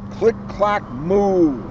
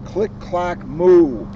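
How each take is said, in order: Both takes have the same delivery.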